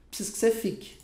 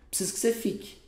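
The two takes are said the same way.

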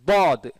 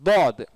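No difference in how they are said.

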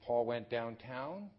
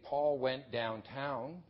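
First: The voice rises at the end. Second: The voice falls at the end. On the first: The speaker is asking a question. "or they can be marked by intonation" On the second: The speaker is stating a fact. "So I can say Paul went downtown"

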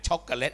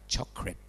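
First: The word is said in three full syllables. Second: The word is said in two syllables. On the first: The speaker calls it wrong. "อย่าอ่านช็อกโกแลต" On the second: The speaker calls it right. "อ่านว่าช็อกเครดจำไว้นะ"

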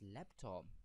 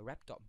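First: The word begins with an L sound. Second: The word begins with an R sound. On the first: The speaker calls it right. "you mean it's laptop" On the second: The speaker calls it wrong. "she kept on saying a raptop"

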